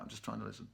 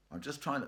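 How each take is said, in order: First: Whispered, straining to hear. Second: Said in the usual way. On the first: Real, not acted. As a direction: hush and listen closely. Listening for quiet instruments.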